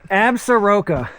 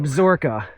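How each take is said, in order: First: It is said the out-of-town way. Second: It is said the local way. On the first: The speaker is not from the area. The speaker calls it wrong. "You're from out of town" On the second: The speaker is from the area. The speaker calls it right. "Then that's the local pronunciation?"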